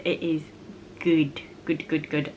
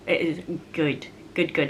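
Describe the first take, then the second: First: Whisper. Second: Said in the usual way. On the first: Acted. Repeats praise, dropping to whisper.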